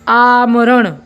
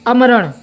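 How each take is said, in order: First: The first vowel is long. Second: The first vowel is short. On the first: "इस शब्द को हम ठहराव ले रहे हैं उच्चारण करते समय" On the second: "मात्रा का चेंज करके उच्चारण करते हैं"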